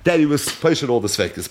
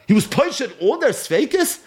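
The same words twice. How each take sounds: First: Falling statement, stress on that; firm statement. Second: Rising, higher question on their; rhetorical question. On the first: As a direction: state it flatly as settled fact. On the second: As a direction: ask it as an incredulous question. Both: Shown as a demonstration. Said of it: "It doesn't say anywhere in the Gemara".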